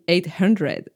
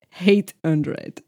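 First: The first word begins with a vowel sound. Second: The first word begins with an h sound. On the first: The speaker calls it right. "instead of saying 800" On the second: The speaker calls it wrong. "I say hate hundred"

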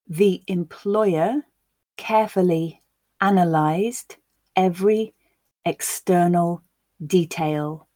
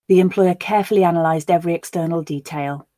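First: The sentence is said at a slow pace. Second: The sentence is said at a natural pace. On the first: "I will read it once slowly so that you can grasp the words" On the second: "We'll then listen again at a more natural pace"

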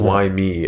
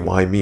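First: It sounds self-pitying, like a victim. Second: It sounds curious, seeking the reason.

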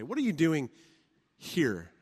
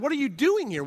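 First: The stress is on here. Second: The stress is on doing.

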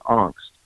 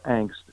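First: It is said with a German pronunciation. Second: It is said with a Midwestern American pronunciation. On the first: "the Germans pronounce the word angst" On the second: "if you want to use the Midwestern American pronunciation"

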